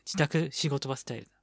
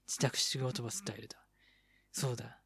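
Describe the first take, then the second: First: Said in the usual way. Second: Soft unvoiced whisper. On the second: Shown as a demonstration. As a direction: repeat it in a whisper.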